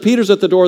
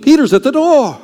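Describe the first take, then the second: First: Said in the usual way. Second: High and loud, blurting "Peter's at the door"; excited announcement. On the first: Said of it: "when they're told". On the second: Pretend. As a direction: burst in breathless with "Peter's at the door". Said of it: "and says, not a long speech".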